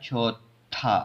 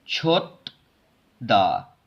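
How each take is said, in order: First: The syllables merge into a strongly aspirated th. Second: The two syllables stay apart with an unaspirated d. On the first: The speaker calls it right. "ये ऐसे पढ़ने में आएगा" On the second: The speaker calls it wrong. "इसको ऐसे नहीं पढ़ना"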